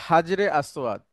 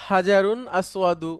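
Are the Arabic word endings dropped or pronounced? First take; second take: dropped; pronounced. First: The words are said without full Arabic endings. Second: The words are said with full Arabic endings. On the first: This is the everyday local way of saying it. "আমরা বলি" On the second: This is the proper classical form. "মূলত ... শুদ্ধ আরবি যদি বলি"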